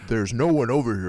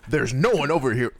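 First: It is said in a put-on deep voice. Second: It is said in a normal voice.

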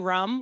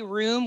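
First: Room is said to sound like rum. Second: Room is said with its usual long vowel. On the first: "We say rum, like bedroom" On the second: "we don't say room"

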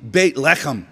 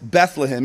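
First: The name is said in its original Hebrew form. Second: The name is said in its usual English form. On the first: The speaker calls it right. "if we say it correctly, it would be Beit Lechem" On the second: The speaker calls it wrong. "the name is Bethlehem"

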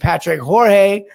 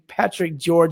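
First: The second name sounds like Spanish Jorge. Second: The second name sounds like English George. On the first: The speaker calls it wrong. "I always say Patrick Jorge" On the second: The speaker calls it right. "but it's actually Patrick George"

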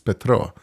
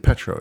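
First: The name is said with a Ukrainian pronunciation. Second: The name is said with an English pronunciation. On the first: The speaker calls it right. "It's Petro" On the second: The speaker calls it wrong. "it's not really Petro"

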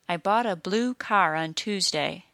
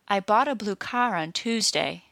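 First: Both blue and car are stressed, blue lengthened. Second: Car is stressed and blue is said quickly. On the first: "two single-syllable content words next to each other are stressed" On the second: "when I stressed car but not blue, the word blue was said very quickly"

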